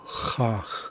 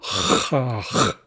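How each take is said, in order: First: The first consonant is moderately hard. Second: The first consonant is very hard. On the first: "hit it a little bit harder" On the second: "hit it really hard"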